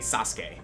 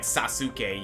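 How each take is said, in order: First: The middle u vowel is nearly silent. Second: The middle u vowel is clearly sounded. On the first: The speaker calls it right. "the U in Japanese is more often than not silent" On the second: The speaker calls it wrong. "instead of saying like Sasuke"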